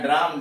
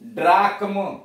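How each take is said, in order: First: No k sound is heard before the final m. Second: A k sound is heard before the final m. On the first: The speaker calls it right. "सी एच गायब होगा" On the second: The speaker calls it wrong. "सीधे पढ़ेंगे तो ऐसे होगा"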